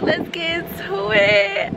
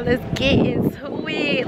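First: "Let's get into it." drawn out higher with a rising end; higher, slow sing-song. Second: Said in the usual way. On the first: Shown as a demonstration. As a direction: stretch "Let's get into it." up into a tease.

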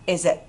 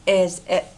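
First: "Is it" run together as one word; connected, quicker "Is it"; linked sounds. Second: Said in the usual way. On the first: Shown as a demonstration. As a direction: link "Is" straight into "it". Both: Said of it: "Đọc nối ha".

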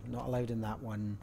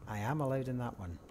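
First: Said in the usual way. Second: Am lifted and leaned on as a correction; stress on am. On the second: Real, not acted. Correcting himself about the room, stress on am. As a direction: lean on the word am, correcting himself.

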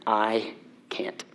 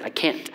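First: Soft, unvoiced whisper. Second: Quiet. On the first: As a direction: breathe it out, defeated. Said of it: "Exactly what I said". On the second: Retold or imitated. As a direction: say it quietly, resigned. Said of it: "Literally, it's what I said".

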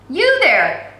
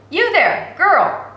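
First: Loud call across the street. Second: Put-on loud, higher call to the girl. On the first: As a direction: shout to stop a girl in the street. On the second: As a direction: call her again, louder and higher. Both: A narrator's reading. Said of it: "a voice called out".

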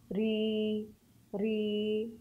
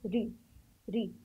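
First: ري with a long, held ee; long vowel. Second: ري with a short, quick ee; short vowel. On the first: Teacher showing pupils the letter with a long sound, drawn-out ري. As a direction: stretch out the vowel in ري. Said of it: "بالصوت الطويل". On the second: Teacher showing pupils the letter with a short sound, short vowel on ري. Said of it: "بالصوت القصير". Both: Shown as a demonstration.

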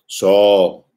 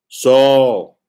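First: Calling Saul. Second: Second "Saul" called higher and louder; calling Saul again, louder. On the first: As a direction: voice of God calling the name, a touch louder. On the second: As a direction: lift the second "Saul" into a ringing call. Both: Acted. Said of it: "by repeating his name twice".

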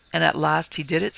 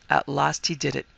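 First: "And at last he did it" lifted at the end; questioning tune. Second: "At last he did it" with a falling end; confirming tune. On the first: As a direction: check it with a rise on "it". Asked, then confirmed. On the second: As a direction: settle "it" downward as a confirmation. Confirms the question. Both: A narrator's reading.

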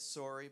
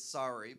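First: "sorry" with a rounded "or" vowel, SORE-ee; Canadian sorry. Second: "sorry" with an open "ah" vowel, SAH-ree; sorry as SAWRY. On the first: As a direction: say "sorry" to rhyme with "story". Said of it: "It's spelled S O R R Y". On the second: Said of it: "not S A W R Y". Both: Shown as a demonstration.

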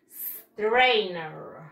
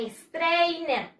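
First: "strainer" starting on a long pure s, no e before it; correct pronunciation. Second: "strainer" with an extra e before the s; wrong pronunciation. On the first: Teacher shows pupils her own way, correct pronunciation. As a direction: stretch "strainer" slowly from a hissed s. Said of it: "yo digo". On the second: Teacher shows pupils what not to say, wrong pronunciation. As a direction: say "strainer" as a Spanish speaker would, "estrainer". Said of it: "recuerden que yo no digo". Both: Shown as a demonstration.

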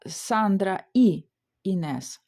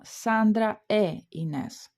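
First: «Сандра і Інес» with the conjunction і said as a plain ee before Інес; wrong form. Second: «Сандра е Інес» with the conjunction said as a clear e sound before Інес; correct form. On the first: Teacher showing students the wrong way to join the names. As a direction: slowly say і between the names, the way learners get it wrong. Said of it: "ми не говоримо". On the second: Teacher showing students the correct conjunction before Інес. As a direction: slowly say е between the names, the correct way. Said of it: "а ми говоримо". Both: Shown as a demonstration.

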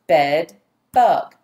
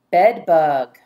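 First: "Bed bug" as two loud, separate beats; split into syllables. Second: Said in the usual way. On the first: Shown as a demonstration. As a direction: pound out "Bed", pause, then "bug". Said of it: "Pound the syllables". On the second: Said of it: "Your next word is".

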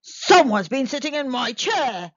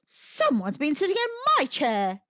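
First: Loud growling bear voice; growling Father Bear. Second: Mother Bear voice. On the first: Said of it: "growled Father Bear". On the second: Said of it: "said Mother Bear". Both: Acted.

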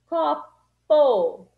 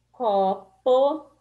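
First: "copo" with a loud, separate "po"; "copo" split in two, hitting "po" hard; stress on PO. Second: Said in the usual way. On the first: Shown as a demonstration. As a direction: punch the last syllable "po" in "copo". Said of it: "pô". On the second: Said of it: "A sílaba que se repete".

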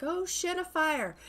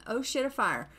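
First: Higher, mock panicked cry. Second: Said in the usual way. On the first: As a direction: imitate a panicking husband. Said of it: "He's like".

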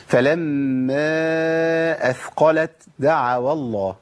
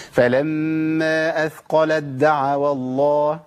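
First: Slow chanted recitation, أثقلت keeping a breathy ت before دعوا; wrong hams before dal. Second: Slow chanted recitation, أثقلت دعوا merged as "athqaladda'awa"; idgham into dal. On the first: Teacher demonstrating a faulty recitation, ت with hams. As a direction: release air on the ت of أثقلت, then دعوا. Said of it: "أنا كده عملت همس". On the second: Teacher reciting the first place correctly, ت merged into د. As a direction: drop the ت of أثقلت into a doubled د. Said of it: "كده إيه؟ ده الموضع الأول". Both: Shown as a demonstration.

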